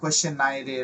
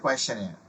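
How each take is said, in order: First: The ending is split into two syllables, 'nai-re'. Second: The ending is one syllable, sounding like 'nair'. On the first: The speaker calls it wrong. "এরকম উচ্চারণ না" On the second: The speaker calls it right. "কোয়েশ্চেন এর উচ্চারণটা এভাবে"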